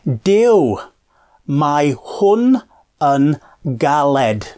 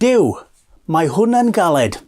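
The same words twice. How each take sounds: First: The phrase is said slowly. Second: The phrase is said at normal speed.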